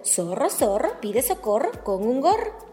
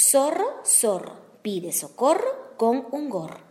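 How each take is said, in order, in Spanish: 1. Se dice al ritmo más rápido. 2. Se dice a un ritmo moderado y normal.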